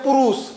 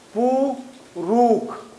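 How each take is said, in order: First: The word ends with an sh sound. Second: The word ends with a kh sound. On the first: "जैसे बोलते हैं पुरुष" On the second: "तो क्या होगा पुरुख"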